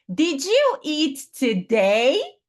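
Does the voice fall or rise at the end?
rise. The pitch rises at the end. It is asked as a question. The speaker calls it right. "no final tem um today, sobe"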